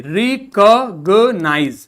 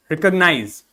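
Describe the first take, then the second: First: Recognize broken very slowly into rec-og-nize; syllable-by-syllable reading. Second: Said in the usual way. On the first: Shown as a demonstration. Teacher decoding a spelt word, syllable by syllable. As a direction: sound out recognize in separate, stretched syllables. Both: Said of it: "ये क्या है?".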